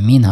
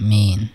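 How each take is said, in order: First: The vowel is said short. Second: The vowel is held long. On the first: The speaker calls it wrong. "মানে মিন হবে না" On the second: The speaker calls it right. "Double vowel মানে স্ট্রেসটাও ডাবল বার হবে"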